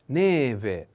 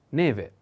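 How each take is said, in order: First: Neve slowly, first e drawn out; slow model pronunciation. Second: Said in the usual way. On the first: Shown as a demonstration. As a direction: stretch the stressed first e of neve. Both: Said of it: "Put attention on the accent".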